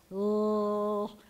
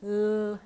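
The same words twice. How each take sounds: First: L- with the tongue flat against the roof of the mouth; American L. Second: L- light, tongue tip behind the teeth; a dainty L- with the tip behind the teeth; Israeli L. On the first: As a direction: splat the tongue up on the palate for L-. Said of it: "we splat it up against the roof of our mouth like this". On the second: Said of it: "you put it behind your teeth like this". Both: Shown as a demonstration.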